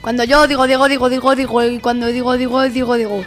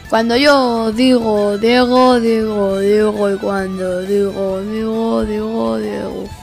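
First: It is said at the fastest speed. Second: It is said at the slowest speed.

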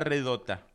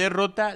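First: The word is said with swapped sounds, redota. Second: The word is said in its standard form, derrota. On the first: This is how the people of the exodus said it. "ellos decían así" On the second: This is the standard word for defeat. "En vez de derrota"

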